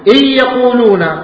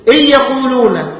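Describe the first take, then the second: No difference in how they are said.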